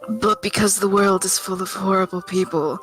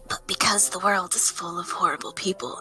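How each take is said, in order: First: It is read in a normal speaking voice. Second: It is read in a creepy whispered voice.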